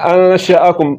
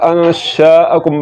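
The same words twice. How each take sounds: First: The vowel after the sh sound is short. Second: The vowel after the sh sound is long. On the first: The speaker calls it right. "زبر کو لمبا نہیں کرنا. انشأکم اس طرح پڑھنا ہے" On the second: The speaker calls it wrong. "زبر کو لمبا کرنے سے یہ الف بڑھ جائے گا... اور یہ غلط ہے"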